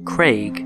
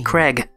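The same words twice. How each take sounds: First: The vowel is an A sound. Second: The vowel is an E sound. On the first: The speaker calls it right. "Now you notice A and I make an A sound" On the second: The speaker calls it wrong. "It is not bloody Craig"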